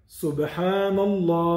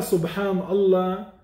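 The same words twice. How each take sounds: First: Subhanallah said slowly, ending on a clear h; the proper Subhanallah, each syllable drawn out; correct pronunciation. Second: Subhanallah said without the final h; the careless Subhanallah, ending cut short; wrong pronunciation. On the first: Teacher showing the right way, Subhanallah slow with the final h. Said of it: "qu'est-ce qu'il dit?". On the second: Teacher showing the wrong way, Subhanallah with no h at the end. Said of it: "il ne dit pas Subhanallah". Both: Shown as a demonstration.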